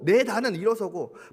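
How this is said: It is read in a cheeky, flippant tone. "이것 좀 촐싹맞게 읽으면"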